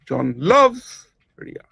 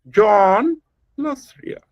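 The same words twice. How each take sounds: First: The stress falls on the word loves. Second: The stress falls on the word John. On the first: "The second example" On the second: "Put the emphasis on John"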